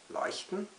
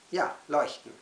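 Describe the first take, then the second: First: "Leuchten" as a high, rising question; questioning echo. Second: "Ja, leuchten" stated firmly with falling end; firm confirmation. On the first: Poet doubts own word for children, "Leuchten" as high question. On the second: Poet answers own doubt, "Ja, leuchten" firmly falling. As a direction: answer with "Ja, leuchten", landing it as certain. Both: Acted.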